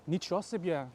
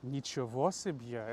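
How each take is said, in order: First: The first word is shortened to two syllables. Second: The first word is said in full, three syllables. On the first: The speaker calls it right. "people say it like" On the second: The speaker calls it wrong. "nobody says the word nichevo себе. It sounds strange"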